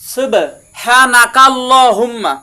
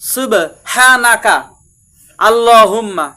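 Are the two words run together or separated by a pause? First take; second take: run together; separated. First: The two words are joined without any pause. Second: There is a pause between the two words. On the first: "যদি আপনি মিলি পড়েন" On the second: "আর যদি থামেন"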